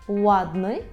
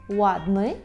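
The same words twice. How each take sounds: Both takes have the same delivery.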